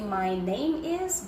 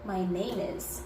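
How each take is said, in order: First: Each word is said separately with breaks. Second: The words run together with linked sounds. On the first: The speaker calls it wrong. "You don't say" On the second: The speaker calls it right. "you combine that my name plus is"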